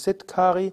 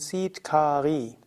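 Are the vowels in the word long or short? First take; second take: short; long. First: The vowels in the word are short. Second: The vowels in the word are long. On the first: The speaker calls it wrong. "Also es ist nicht Siddhkari" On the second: The speaker calls it right. "alle drei Vokale lang"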